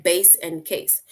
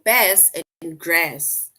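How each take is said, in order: First: "bass" and "case", both with a long A; matching ay vowel in "bass" and "case"; bass rhyming with case. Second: Slow, loud "bass" and "grass", both with the a of cat; bass rhyming with grass. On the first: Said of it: "it basically rhymes with case". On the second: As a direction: say "bass" to rhyme with "grass", short front a. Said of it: "this word, they say it rhymes with". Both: Shown as a demonstration.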